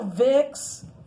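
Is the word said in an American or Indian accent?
American. It is said in an American accent. The speaker calls it wrong. "you know, Vicks"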